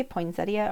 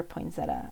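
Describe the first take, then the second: First: "poinsettia" ending in ee-uh; full-ending pronunciation. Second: "poinsettia" ending in just uh; short-ending pronunciation. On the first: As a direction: say "poinsettia" with four syllables, poin-set-ee-uh. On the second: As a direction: say "poinsettia" with three syllables, poin-set-uh. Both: Shown as a demonstration. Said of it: "Do you say poinsettia or poinsettia".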